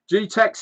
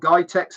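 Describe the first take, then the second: First: The first syllable sounds like 'gee'. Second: The first syllable sounds like 'guy'. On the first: This is the speaker's own way of saying it. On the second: Someone else said it this way.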